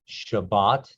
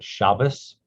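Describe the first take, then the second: First: The word ends with a t sound. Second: The word ends with an s sound. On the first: "that's Sabbath"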